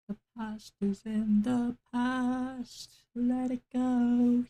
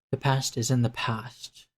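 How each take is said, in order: First: High, slow sung line. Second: Said in the usual way. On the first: Pretend. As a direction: sing it out like a big ballad, drawn out. Sings the phrase Let it go.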